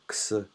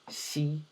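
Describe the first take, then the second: First: The letter is said like English 'ex'. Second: The letter is said like Chinese 'shee'. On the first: The speaker calls it wrong. "it's not X" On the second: The speaker calls it right. "this is Xi"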